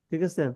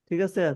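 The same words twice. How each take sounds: Both takes have the same delivery.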